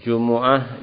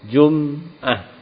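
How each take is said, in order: First: The m is followed by a u vowel. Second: The m is followed by no vowel. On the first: This is the widely known reading. "dengan didhammahkan huruf mimnya" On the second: This is a reading attributed to al-A'mash. "Kadang-kadang mimnya disukun"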